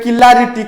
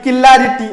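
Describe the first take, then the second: The two takes are said the same way.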